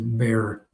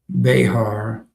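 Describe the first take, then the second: First: The name is said with one syllable. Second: The name is said with two syllables. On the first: The speaker calls it right. "it is Bear" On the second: The speaker calls it wrong. "I pronounced the Behar County wrong. He said it's not Behar"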